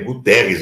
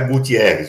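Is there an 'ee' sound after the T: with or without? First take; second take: without; with. First: No 'ee' sound follows the T. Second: An extra 'ee' sound follows the T. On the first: The speaker calls it right. "É Guterres o nome do cara" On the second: The speaker calls it wrong. "não é Gutierrez"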